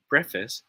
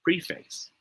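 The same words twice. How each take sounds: First: "preface" said PREF-iss, short e and unstressed ending; first option. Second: "preface" said PREE-face, long ee and full face ending; second option. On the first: Teacher to online class, "preface" as PREF-iss. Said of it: "smiley face if it is pronounced as preface". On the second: Teacher to online class, "preface" as PREE-face. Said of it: "wink face if it is pronounced as preface". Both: Shown as a demonstration.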